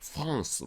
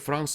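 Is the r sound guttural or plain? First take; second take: guttural; plain. First: The r is a breathy, guttural h-like sound. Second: The r is a plain light tap. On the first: "원래 쪽 발음 뭐냐면 프랑스" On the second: "우리는 그냥 프랑스로 합니다"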